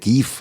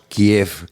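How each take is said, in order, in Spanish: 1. El nombre se dice en su forma ucraniana. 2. El nombre se dice en su forma rusa. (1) "parece que ellos prefieren Kiev" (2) "aquí hasta hace muy poquito decíamos Kiev"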